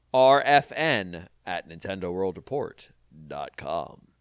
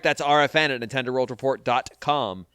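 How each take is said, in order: First: Slow, deliberate address. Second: Said in the usual way. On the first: Shown as a demonstration. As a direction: spell out "R F N at Nintendo World Report dot com" slowly, each letter separate. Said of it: "repeated deliberately". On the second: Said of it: "said slowly again".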